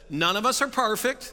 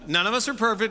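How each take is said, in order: First: 'Perfect' begins with a 'par' sound. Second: 'Perfect' begins with a 'per' sound.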